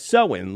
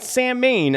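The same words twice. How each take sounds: First: The word begins with a 'sow' sound. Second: The word begins with a 'sam' sound. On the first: The speaker calls it right. "often pronounced as Samhain, like sewing a needle" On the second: The speaker calls it wrong. "Not Samhain as it's spelled out"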